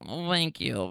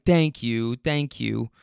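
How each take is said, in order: First: Softer, half-hearted imitation of a drunk girl's nasal "thank you". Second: Said in the usual way. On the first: Driver imitating a drunk passenger thanking him, in a half-hearted drunk nasal voice. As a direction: try a slurred, nasal "Oh, thank you" and give up. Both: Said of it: "Really drunk, nasally voice".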